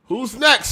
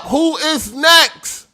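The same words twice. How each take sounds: First: Said in the usual way. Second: Very slow, high, loud drawn-out shout; mock ringmaster summoning the next one; barker call. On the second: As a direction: bellow it to the whole crowd. Mock barker calling next challenger.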